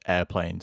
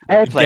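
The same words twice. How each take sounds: First: The word is said at a normal volume. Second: The word is shouted loudly. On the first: The speaker calls it wrong. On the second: The speaker calls it right.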